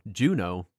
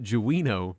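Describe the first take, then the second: First: The name is said with two syllables. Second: The name is said with three syllables. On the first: The speaker calls it right. "I've always called Juno Juno" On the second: The speaker calls it wrong. "the guy called it Juino the whole time"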